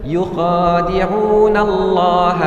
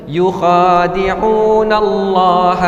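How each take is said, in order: No difference in how they are said.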